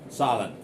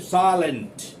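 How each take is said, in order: First: The T after N is soft. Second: The T after N is clearly pronounced. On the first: "So I'm pronouncing it silent" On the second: "in India, we say silent"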